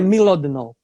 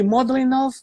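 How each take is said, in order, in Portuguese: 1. O nome começa com o som de 'milo'. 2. O nome começa com o som de 'mod'. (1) "eu acredito que pode ser a pronúncia certa" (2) "eu chamo de Modlinov"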